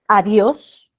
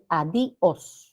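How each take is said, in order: First: The i and o are joined in one syllable. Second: The i and o are split into two syllables. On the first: The speaker calls it right. "La sílaba tónica es Dios" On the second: The speaker calls it wrong. "si separáramos"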